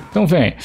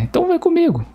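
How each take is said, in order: First: Said in the usual way. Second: Sudden high falsetto taunt; cartoonish high voice teasing the enemy; squeaky taunt.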